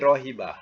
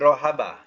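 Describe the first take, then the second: First: The middle vowel is an 'i' sound. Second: The middle vowel is an 'a' sound. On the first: The speaker calls it right. "Tapi rohiba" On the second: The speaker calls it wrong. "dalam kamus bukan bunyi rohaba"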